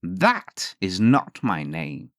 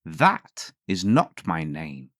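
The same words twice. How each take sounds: First: Very slow, drawn-out imp answer; slow smug refusal. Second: Slow, drawn-out imp answer; slow smug refusal. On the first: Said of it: "he answered nothing but". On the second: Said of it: "the little man said". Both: A narrator's reading. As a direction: savour each word smugly.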